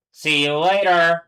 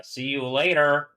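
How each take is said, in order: First: "See you later" called out higher and louder, slow; loud slow mock farewell; loud sign-off. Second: Said in the usual way. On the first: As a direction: sing out a drawn-out goodbye.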